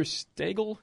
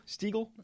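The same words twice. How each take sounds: First: Stegel with a long A, STAY-gul; alternate pronunciation. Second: Stiegel with a long E, STEE-gul; alternate pronunciation. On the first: Host unsure of detective's name, Stegel said STAY-gul. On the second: Host settling detective's name, Stiegel said STEE-gul. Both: Shown as a demonstration. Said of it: "I think it was, or Stegel".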